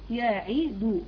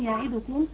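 First: The vowel after the d is given full length. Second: The vowel after the d is nearly dropped. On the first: The speaker calls it right. "لازم أضم الدال كويس وأعطيها زمنها" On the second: The speaker calls it wrong. "كأنه يختلس ضمة الدال فتصبح كأنها حرف ساكن، وهذا غير صحيح"

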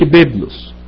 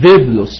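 First: The word begins with a b sound. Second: The word begins with a v sound. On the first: "ما قالش بيبلوس" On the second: "قال إيه؟ فيفلوس"

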